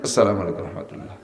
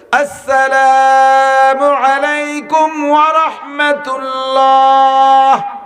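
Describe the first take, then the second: First: It is said quickly and cut short. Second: It is said slowly, with long drawn-out sounds.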